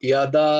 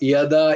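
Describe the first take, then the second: No difference in how they are said.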